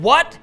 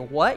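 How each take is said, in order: First: It sounds hostile and confrontational. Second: It sounds like a genuine, curious question. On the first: The speaker is challenging the listener. "now I'm getting aggressive" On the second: The speaker is asking for information. "you think I'm asking a question"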